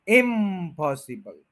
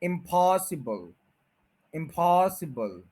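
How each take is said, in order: First: इम्पॉसिबल stressed on इम; इम्पॉसिबल with the mistaken इम stress; wrong stress. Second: इम्पॉसिबल slow with पॉस stressed; इम्पॉसिबल, पॉस strong, इम light; stress on POS. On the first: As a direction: put wrong weight on इम in इम्पॉसिबल. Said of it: "इम के ऊपर stress कर देते हैं". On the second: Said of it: "stress वही रहेगा जो ओरिजिनल में था". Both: Shown as a demonstration.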